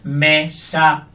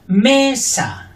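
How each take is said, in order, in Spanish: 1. Las dos sílabas son iguales, robótico y plano. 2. El acento está en la primera sílaba. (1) "la robótica" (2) "fuerte la primera"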